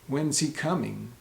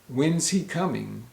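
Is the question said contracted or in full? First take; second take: contracted; contracted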